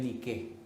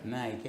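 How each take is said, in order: First: The word is said with a Greek pronunciation. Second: The word is said with an English pronunciation. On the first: "En griego en realidad es Nike" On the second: "ellos lo pronuncian en inglés, que es como Nike"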